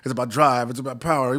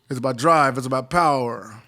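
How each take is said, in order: First: It is said fast. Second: It is said slowly.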